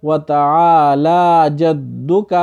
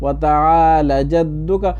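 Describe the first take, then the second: First: وتعالی with a long la and جدک with a short dal; correct form. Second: وتعالی جدک with the lam left short; common mistake. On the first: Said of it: "بلکہ کیا کرنا ہے؟". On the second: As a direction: say وتعالی with a clipped la. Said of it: "کچھ لوگ پڑھتے ہیں وتعالی". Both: Shown as a demonstration.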